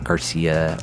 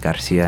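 First: The surname is said the anglicized, English way. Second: The surname is said the traditional, Spanish way. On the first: The name is adapted to fit in. The speaker calls it wrong. "not Garcia" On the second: The name keeps its heritage. The speaker calls it right. "take pride in saying your name is Garcia"

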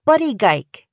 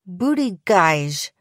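First: The last syllable has a hard g sound. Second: The last syllable has a soft zh sound. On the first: "like Geiger and Geico" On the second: "like geisha"

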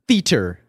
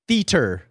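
The two takes are said the same way.

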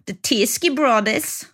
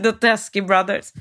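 First: The name is said in an attempted Australian accent. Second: The name is said in the speaker's ordinary accent. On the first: "undrar hur de säger på australienska" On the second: "Vi kallar dem bara kort och gott för"

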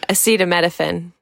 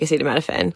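First: The word is said slowly. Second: The word is said fast.

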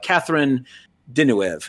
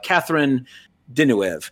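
First: The name is said with an American pronunciation. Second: The same.

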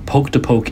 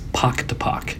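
First: The vowel is a long 'o' as in poke. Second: The vowel is a short 'o' as in pock. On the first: The speaker calls it wrong. "poke to poke is wrong" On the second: The speaker calls it right. "It is pock to pock"

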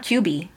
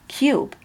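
First: The word ends with an extra ee vowel. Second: The word ends on the b sound. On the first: The speaker calls it wrong. "It's not cubey" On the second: The speaker calls it right. "Look at the word cube"

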